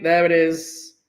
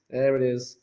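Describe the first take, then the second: First: Said in the usual way. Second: Soft, low repeat; low echo. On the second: Real, not acted. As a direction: echo it under your breath, pitched down. Lower echo of same words.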